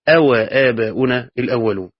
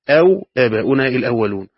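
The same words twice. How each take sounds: First: The w is followed by a short a vowel. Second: The w has no vowel after it. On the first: It is a question word followed by the word and. "على قراءة أو آباؤنا الأولون بفتح الواو" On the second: The whole word is a single joining word meaning or. "في قراءة أخرى أو بسكون الواو"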